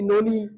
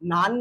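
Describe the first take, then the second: First: It is two syllables, sounding like 'nonny'. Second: It is one syllable, sounding like 'nun'. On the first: The speaker calls it wrong. "তোমরা যেন আবার ঘরে গিয়ে বলো না ননি" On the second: The speaker calls it right. "শুদ্ধ উচ্চারণ করে"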